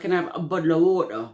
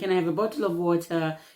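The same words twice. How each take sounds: First: It is said in a UK accent, consonants dropped. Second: It is said in a plain, clear accent.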